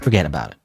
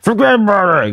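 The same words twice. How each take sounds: First: It is said at a normal volume. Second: It is yelled loudly.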